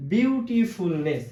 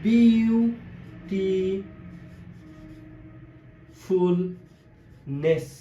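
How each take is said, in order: First: বিউটিফুলনেস slowish in joined beats, বিউ-টি-ফুল-নেস; deliberate বিউটিফুলনেস with only tiny gaps; lightly broken up. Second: বিউটিফুলনেস extremely slow, বিউ, টি, ফুল, নেস; long silences between parts of বিউটিফুলনেস; each piece of বিউটিফুলনেস stretched and isolated; broken into syllables. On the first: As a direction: say বিউটিফুলনেস slowly, nearly in one go. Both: Shown as a demonstration. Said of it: "ভেঙে ভেঙে উচ্চারণ করে থাকি".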